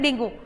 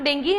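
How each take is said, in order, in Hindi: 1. शब्द का अंत oo ध्वनि से होता है। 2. शब्द का अंत ee ध्वनि से होता है। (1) "हिंदी में जैसा आप प्रोनाउंस करते हैं डेंगू" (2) "इंग्लिश में उसको डेंगी"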